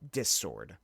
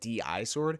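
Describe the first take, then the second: First: The name is said as one short syllable. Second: The name is said as two separate letters. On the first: The speaker calls it right. "It's actually pronounced dis sword" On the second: The speaker calls it wrong. "I've been calling it D I sword"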